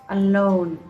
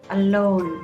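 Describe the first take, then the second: The two takes are said the same way.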